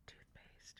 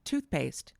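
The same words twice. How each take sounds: First: Muffled whisper behind a cupped hand. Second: Said in the usual way. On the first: Shown as a demonstration. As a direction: whisper it into your palm. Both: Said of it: "You just whispered into your hand".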